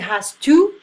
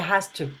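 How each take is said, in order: First: The word 'to' has a full 'oo' vowel. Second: The word 'to' has a reduced 'uh' vowel. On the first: The speaker calls it wrong. "we don't say has to" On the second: The speaker calls it right. "we say has to. The O is like a uh sound"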